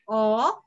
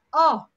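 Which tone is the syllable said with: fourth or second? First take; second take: second; fourth. First: The pitch rises from middle to high. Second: The pitch falls sharply from high to low. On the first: "It's second tone" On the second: "The answer is fourth"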